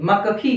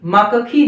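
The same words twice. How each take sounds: First: The consonants join with no vowel between them. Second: A vowel is heard between the joined consonants. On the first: The speaker calls it right. "अगर आपने क पूरा कर दिया तो मक्खी मक्खी में बदल जाएगी" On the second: The speaker calls it wrong. "मक्खी नहीं"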